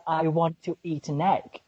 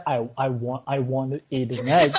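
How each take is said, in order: First: British accent with a clearly sounded T in "want to". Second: American accent with the T softened in "want to"; American soft T. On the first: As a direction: pronounce both T's crisply in "want to eat". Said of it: "pronounce T really clear". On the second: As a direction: let the T's in "want to eat" go soft. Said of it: "instead of". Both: Shown as a demonstration.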